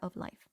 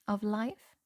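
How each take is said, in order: First: The voice falls at the end like a statement. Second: The voice rises at the end like a question. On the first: It is a plain statement. The speaker calls it right. "It was not" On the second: It sounds like a question. The speaker calls it wrong. "That sounded like a question"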